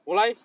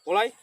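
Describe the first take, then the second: The two takes are said the same way.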